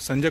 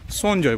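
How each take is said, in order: First: The first vowel is an open 'a' sound. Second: The first vowel is a rounded 'o' sound. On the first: This is the Hindi way of saying it. "अगर आप संजय बोलते हैं" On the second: This is the Bengali way of saying it. "संजय को यहाँ पे सोनजॉय बोला जाता है"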